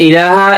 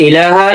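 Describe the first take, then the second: No difference in how they are said.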